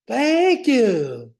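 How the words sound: It is said in a peppy cheerleader voice. "Here's my cheerleader. ... I need work on my cheerleader"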